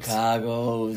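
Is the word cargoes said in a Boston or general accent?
Boston. The word is said in a Boston accent. The speaker calls it right.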